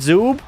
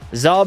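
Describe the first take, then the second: First: The vowel sounds like the 'oo' in food. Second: The vowel sounds like the 'u' in rub. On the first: The speaker calls it wrong. "The announcer is saying uh, Zoob" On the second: The speaker calls it right. "Zub, not Zoob"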